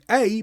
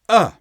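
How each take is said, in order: First: The vowel is full, like the letter name. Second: The vowel is reduced to a short schwa.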